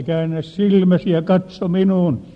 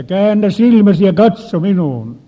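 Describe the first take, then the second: First: Repeated command. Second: Forceful shouted command, much louder. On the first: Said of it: "käskin uudestaan". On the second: Preacher ordering the possessed woman, loud and forceful. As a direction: bark it out to break the spell. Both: Retold or imitated.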